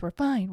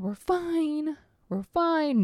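First: Said in the usual way. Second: Mock-calm higher "We're fine"; higher sing-song reassurance. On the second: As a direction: chant "We're fine" higher, talking herself down. Repeating reassurance to herself.

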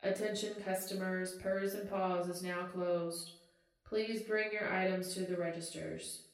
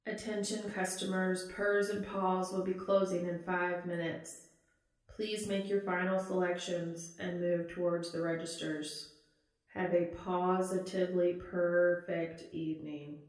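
First: Clerk reading closing time over the speaker; customer service voice. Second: Chirpy store clerk on the PA; customer service voice. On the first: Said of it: "the overhead speaker dings again". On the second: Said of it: "in her best, customer service voice". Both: Acted.

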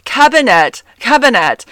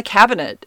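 First: "Cabinet" high and loud, ending in a hard "-net"; mock it with an exaggerated "cab-i-NET"; mocking imitation. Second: "cabinet" with a weak final "-nit"; own pronunciation. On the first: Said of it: "mock me". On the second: Shown as a demonstration. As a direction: say "cabinet" quickly, last vowel relaxed. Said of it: "but cabinets".

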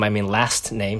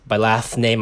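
First: Said in the usual way. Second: Talking through a mouthful of food; words slurred round a bite; mouth full. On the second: Real, not acted. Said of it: "Sorry, I'm eating".

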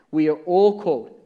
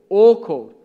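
First: Said in the usual way. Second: "all called" repeated much louder for emphasis; stress on all called. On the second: Shown as a demonstration. Preacher driving home that everyone is called, louder.

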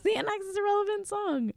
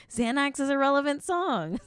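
First: Tiny, very high voice; very high joking repeat. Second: High-pitched joking claim. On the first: Host repeating the joke to listeners, very high-pitched. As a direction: push it right up into a squeak. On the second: Host joking about anxiety medication, high-pitched. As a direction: voice lifting high. Jokingly repeats her point, higher. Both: Acted.

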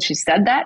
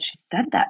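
First: Rising, disbelieving question on that; shocked question. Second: Hushed, breathy flat statement, falling on said; quiet confirmation. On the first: Mother asking her son in disbelief, rising question. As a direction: ask it in disbelief, pitch climbing on that. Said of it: "And I said". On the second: Son quietly confirming to his mother, hushed. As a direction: confirm it softly, almost voiceless. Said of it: "And he said". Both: Retold or imitated.

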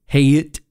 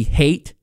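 First: Haight drawn out as "HAY-it"; alternative pronunciation. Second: Said in the usual way. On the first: Shown as a demonstration. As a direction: stretch Haight towards two syllables, hay-it. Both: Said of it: "what other ways you could pronounce that".

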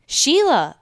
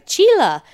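First: High, loud call of a name; screamed name. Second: Put-on high, loud yell of "Sheila" as "Cheela", with a Mexican accent; mom's accent. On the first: Retold or imitated. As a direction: imitate a mom yelling for her child. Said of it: "when my mom screamed my name". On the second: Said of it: "but her accent was more like".

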